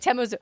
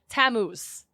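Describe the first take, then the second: First: The name ends with an extra vowel syllable. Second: The name ends on a consonant sound. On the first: The speaker calls it wrong. "not Tamuzu" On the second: The speaker calls it right. "Tammuz, not Tamuzu"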